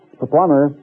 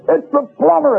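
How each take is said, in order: First: Said in the usual way. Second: High, bellowing shout; top of his voice. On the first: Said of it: "He says". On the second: Retold or imitated. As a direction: yell it out, fed up. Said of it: "at the top of his voice".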